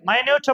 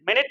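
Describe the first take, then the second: First: It starts with a long 'my' sound. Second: It starts with a short 'min' sound. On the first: It means tiny or subtle. "மைன்யூட் அப்படின்னா நுணுக்கமான, நுட்பமான" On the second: It refers to a unit of time. "மினிட் அப்படின்னா என்ன அர்த்தம்? நிமிடம்"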